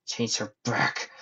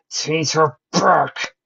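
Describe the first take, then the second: First: Slow, controlled angry demand; contained rage. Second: High, loud, drawn-out demand; raging shout. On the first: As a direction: hold the rage in as you order it. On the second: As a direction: roar each word slowly. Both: A narrator's reading. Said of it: "with rage festering inside him".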